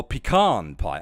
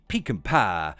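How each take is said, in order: First: "pecan" as pi-KAHN, stress at the end; alternative pronunciation of pecan. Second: "pecan" as PEE-can, stress up front; first pronunciation of pecan. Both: Shown as a demonstration. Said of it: "pecan pie or pecan pie".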